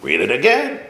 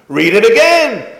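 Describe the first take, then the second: First: Said in the usual way. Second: High, loud teacher command; mock stern order. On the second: Rebbe ordering the boy to reread, loud.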